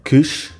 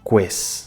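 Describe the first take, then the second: First: It has a closed e and a 'sh' sound. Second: It has an open e and an 's' sound. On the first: "em português, antes de uma consoante surda, como o T, faz o som SH" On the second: "em italiano faz o som S"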